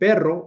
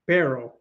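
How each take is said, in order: First: The double r is trilled. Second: The double r is not trilled. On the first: "instead of saying perro" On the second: "you say perro"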